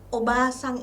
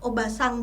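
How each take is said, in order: First: The vowel after the b is long. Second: The vowel after the b is short. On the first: It means grandmother. "obasang itu nenek" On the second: It means aunt. "vokal pendek dan panjang ... obasang bibi"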